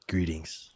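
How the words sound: It is said in a voice trying to sound cool. "he's trying to sound cool"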